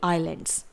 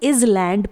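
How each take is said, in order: First: The s sound is silent. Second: The s sound is pronounced. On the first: The speaker calls it right. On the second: The speaker calls it wrong.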